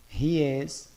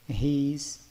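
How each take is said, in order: First: It is said as two separate full words. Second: It is said as one short contracted word. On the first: "vamos falar de forma cheia" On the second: "a forma contraída"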